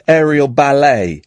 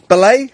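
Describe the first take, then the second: First: "Aerial Ballet" said firmly with a falling tune, stress on "Aerial"; "Ballet" settled, said with a falling finish; settled pronunciation. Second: "Ballet" tried with a questioning rise, stress on the second syllable; "Ballet" said as a query, not sure of it; questioning pronunciation. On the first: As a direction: land on "Aerial Ballet" with confidence. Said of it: "it's like saying Metal Guru". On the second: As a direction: test the word "Ballet" out loud, unsure. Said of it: "How would you say ballet?". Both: Shown as a demonstration.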